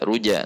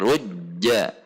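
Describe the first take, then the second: First: The j sound is released quickly. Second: The j sound is held before release. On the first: The speaker calls it wrong. "tidak ruja ruja" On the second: The speaker calls it right. "jim sifatnya adalah syiddah seperti tertahan"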